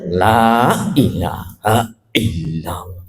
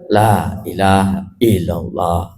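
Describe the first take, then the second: First: The first syllable is cut with a glottal catch. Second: Some sounds and vowel lengths are dropped. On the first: "La-nya seolah-olah ada hamzahnya ini" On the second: "Haknya hilang. Itu dikurangi"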